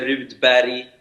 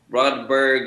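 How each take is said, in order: First: The surname is pronounced the Swedish way. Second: The surname is pronounced the English way. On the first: "en sueco se dice" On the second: "en inglés se dice"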